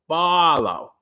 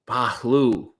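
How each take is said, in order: First: The name ends with a 'low' sound. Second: The name ends with a 'loo' sound. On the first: This is the English-style version of the name. "We anglicize it to sound like Barlow" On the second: This is closer to the original Arabic name. "I'm told it's more like Bagaloo"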